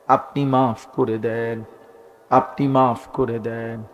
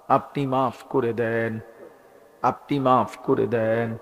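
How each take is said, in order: Both takes have the same delivery.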